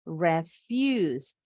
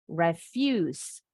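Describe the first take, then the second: First: The stress is on the second syllable. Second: The stress is on the second syllable.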